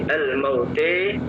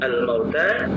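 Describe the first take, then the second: First: The final vowel is tilted toward e. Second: The final vowel is a plain open a.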